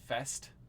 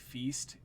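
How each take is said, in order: First: The vowel is short, like 'fest'. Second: The vowel is long, like 'feast'. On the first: The speaker calls it right. "It's a fest" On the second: The speaker calls it wrong. "I pronounced it wrong. It's not a feast"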